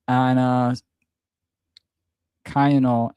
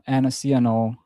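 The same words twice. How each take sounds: First: Ciano said as "kai-AH-no" with a hard K; slow, unsure Ciano starting like "kye"; first try at the name. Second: Ciano said as "see-EN-oh" with an S sound; fixing the name: Ciano with S, not K; corrected name. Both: Shown as a demonstration. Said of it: "Forgive me".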